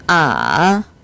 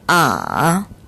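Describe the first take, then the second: First: The pitch dips very low, then rises slightly. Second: The pitch dips very low, then rises slightly.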